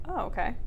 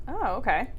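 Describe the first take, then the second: The two takes are said the same way.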